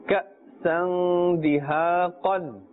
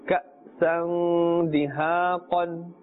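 The two takes are said the same way.

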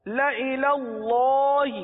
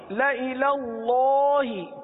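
The two takes are said the same way.

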